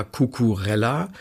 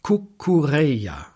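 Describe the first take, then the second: First: Cucurella with a hard German "rella" ending; wrong pronunciation. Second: Cucurella the Spanish way, ending "reh-ya"; elegant correct pronunciation. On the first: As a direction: say Cucurella with the double l as a plain L. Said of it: "Der Mann heißt aber weder". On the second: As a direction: say Cucurella slowly as "koo-koo-REH-ya". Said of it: "sondern sehr elegant Cucurella". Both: Shown as a demonstration.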